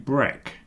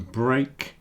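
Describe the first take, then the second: First: The vowel sounds like the one in 'bed'. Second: The vowel sounds like the one in 'brake'. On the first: This is the word as part of breakfast. "that meal is called breakfast" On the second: This is the word on its own. "So the break changes to"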